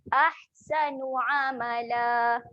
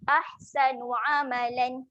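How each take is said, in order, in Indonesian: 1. Kata terakhir diakhiri dengan vokal panjang. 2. Kata terakhir diakhiri dengan bunyi n. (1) "Buang bacaan tanwin. Panjangkan saja bunyi dia" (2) "Bunyi yang salah kita jelaskan tanwin lah"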